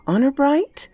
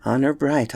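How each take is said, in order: First: "Honor bright" high, rising to a question; questioning boy. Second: "Honor bright" lower, falling as an answer; assuring uncle. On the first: Boy asks uncle to swear "Honor bright", high rising question. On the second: Uncle swears "Honor bright" to boy, low falling assurance. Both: Acted.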